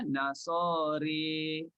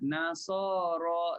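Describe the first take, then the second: First: The final vowel is tilted toward an 'e' sound. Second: The final vowel is a plain open 'a'. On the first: "Jadi bacanya Nasari" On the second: "bunyi dia Nasara"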